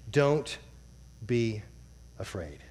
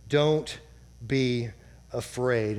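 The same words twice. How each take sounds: First: "Don't be afraid" spoken softly, the word "afraid" almost breathed out; soft, fading to near silence. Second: Said in the usual way. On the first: Shown as a demonstration. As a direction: let "afraid" die away into a hush. Reading verse, then repeating it.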